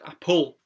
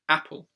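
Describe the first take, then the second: First: The stress is on the second syllable. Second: The stress is on the first syllable. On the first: The speaker calls it wrong. "how weird would it sound" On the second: The speaker calls it right. "the stress goes on usually the first syllable"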